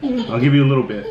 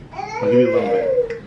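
First: Said in the usual way. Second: Very high, squeaky teasing voice. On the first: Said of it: "repeats it". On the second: Acted. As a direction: repeat it in a tiny squeak. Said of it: "repeats it squeakily".

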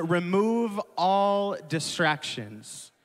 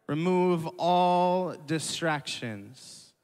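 First: Slow emphatic point. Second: Slow, rising on "all"; slow repeated point. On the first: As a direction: drive the point home slowly. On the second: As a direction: repeat it slowly for notes. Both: Shown as a demonstration. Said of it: "I have three points".

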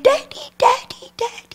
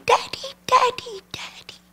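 First: Put-on high, light child voice calling then fading; a small girl calling daddy once more, softer at the end; little girl calling. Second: Put-on high, light child voice fading to a whisper; little girl calling. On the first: Little girl running again. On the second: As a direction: call for daddy like an eager little girl, trailing off. Little girl running to dad.

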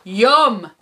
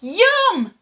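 First: Loud troll "yum" in the reader's own pitch. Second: Put-on very high, loud children's "yum". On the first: Troll spots the digger, loud greedy relish. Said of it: "says the troll". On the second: Children turning on the troll, high loud relish. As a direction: squeal it high as gleeful storybook children. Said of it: "say the children". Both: A narrator's reading.

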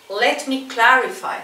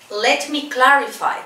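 Both takes have the same delivery.

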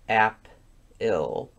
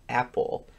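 First: "ap-il" split into two syllables; mock pronunciation guide. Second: Said in the usual way. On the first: Pronunciation guide teaching a word, syllable by syllable. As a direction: break "ap-il" with a gap before "il". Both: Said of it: "people would pronounce this".

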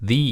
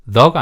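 First: "the" said as "thee"; long ee vowel in "the"; "thee" pronunciation. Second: Said in the usual way. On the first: Shown as a demonstration. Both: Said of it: "the가 아니고 the 이렇게 발음할 건데".

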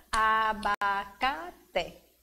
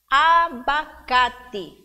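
First: "abacate" very slowly, each syllable stretched out. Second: "abacate" loud and slow, in four beats; loud, stretched syllables in "abacate". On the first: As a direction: drag "abacate" apart into a, ba, ca, te. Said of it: "Cinco, ela é polissílaba". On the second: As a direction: punch out "abacate" as a, ba, ca, te. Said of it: "Quantas sílabas tem essas palavras?". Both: Shown as a demonstration.

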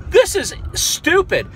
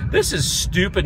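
First: Higher and slow, THIS drawn out in disbelief; can't believe what he's hearing, This is stupid; slow, high exasperated This is stupid; incredulous disgust. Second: Shrugging it off, fed up; resigned grumble. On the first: Disbelief at the arrest. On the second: Resigned after the rant. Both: Real, not acted.

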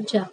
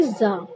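First: जा as "jaa", hard j; j sound in जा. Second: जा said with a buzzing z, "zaa"; z sound in जा. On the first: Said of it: "ना कि". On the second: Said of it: "तो इसे क्या पढ़ेंगे". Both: Shown as a demonstration.

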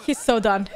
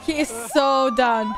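First: Chuckling through the words; amused, laughing as you speak. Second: Slower, laughing harder; drawn out while laughing. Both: Real, not acted. Laughing at video.

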